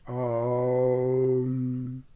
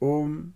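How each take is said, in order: First: The word is drawn out on a long breath. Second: The word is said short and clipped. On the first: "That way it becomes musical" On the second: "If I shorten or lengthen my prana"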